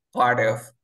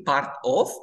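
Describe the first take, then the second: First: PART OF joined as "parof", louder; palabras linkeadas. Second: PART OF as two words with a hard T; sin linkear. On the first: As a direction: drop the T and link PART OF. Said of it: "se linkean las palabras". (PART OF unido, sin T) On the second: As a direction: sound out the T in PART OF. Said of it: "En lugar de decir". (PART OF separado, con la T marcada) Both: Shown as a demonstration.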